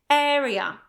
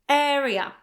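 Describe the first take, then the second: Both takes have the same delivery.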